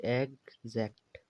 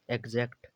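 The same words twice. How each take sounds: First: "एग्जैक्ट" slowly split as एग, ज़ैक्ट; broken into syllables. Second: Said in the usual way. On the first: Shown as a demonstration. Teacher showing x read as gz, slowly splitting "एग्जैक्ट". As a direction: draw out "एग्जैक्ट" in two separate parts, एग then ज़ैक्ट. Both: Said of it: "एक्स को एग्जै ही बोला है".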